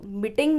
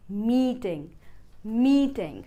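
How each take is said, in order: First: "मीटिंग" with short i; quick first vowel in "मीटिंग", as mit-ting; wrong MEETING. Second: "मीटिंग" with a long, drawn ee; mee-ting, first vowel of "मीटिंग" held; correct MEETING. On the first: Teacher rejecting the mistake, "मीटिंग" with short i. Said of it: "तो मीटिंग नहीं". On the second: Teacher modelling for learners, "मीटिंग" with long ee. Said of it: "long ई का sound है". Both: Shown as a demonstration.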